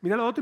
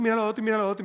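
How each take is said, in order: First: Said in the usual way. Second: Very fast, high, whiny rattle; fast mocking whine; rattled off. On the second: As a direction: rattle it off in one breath. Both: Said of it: "medio femenino".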